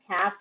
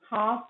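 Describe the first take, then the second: First: "cap" (half) with a front a; American vowel. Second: "half" with an open back ah; British vowel. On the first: Teacher labelling accents for learners, American front a in "cap". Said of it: "cap in American". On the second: Teacher labelling accents for learners, British "half" with ah. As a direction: say "half" as hahf. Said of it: "half in British". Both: Shown as a demonstration.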